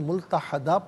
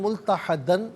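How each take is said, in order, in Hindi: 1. शब्द लंबे 'a' स्वर पर खत्म होता है। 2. शब्द 'n' ध्वनि पर खत्म होता है।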